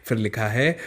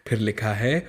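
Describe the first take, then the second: Both takes have the same delivery.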